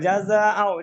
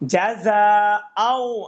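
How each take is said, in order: First: The sounds are run together without separation. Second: Each sound is said separately and clearly. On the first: The speaker calls it wrong. "এটা মিলানো যাবে না, একবারে মিলাই এভাবে বলা যাবে না।" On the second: The speaker calls it right. "স্পষ্ট ভাই।"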